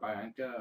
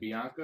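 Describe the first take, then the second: First: The first syllable sounds like "bye". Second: The first syllable sounds like "bee". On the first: "or a bi" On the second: "is it a B"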